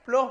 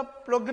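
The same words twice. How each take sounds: First: "प्लो" as "plo", ending on the vowel; silent GH. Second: "प्लग", the GH misread as a g; GH wrongly sounded. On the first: Teacher correcting the misreading for children, "प्लो" with silent GH. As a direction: drop the g entirely in "प्लो". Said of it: "प्लो पढ़ेंगे". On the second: Teacher showing children the misreading, "प्लग" with sounded g. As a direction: say "प्लग" with a hard g closing it. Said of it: "प्लग नहीं पढ़ेंगे". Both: Shown as a demonstration.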